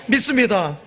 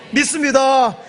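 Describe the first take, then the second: First: Said in the usual way. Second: Shouted affirmation. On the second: Real, not acted. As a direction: call it out to the congregation. Preacher calling out to congregation.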